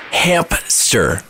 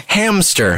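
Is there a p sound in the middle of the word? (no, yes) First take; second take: yes; no. First: A p sound is inserted before the s. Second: No p sound is inserted before the s. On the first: The speaker calls it wrong. "I thought it was Hamp-ster. ... with a P" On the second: The speaker calls it right. "of course it's hamster"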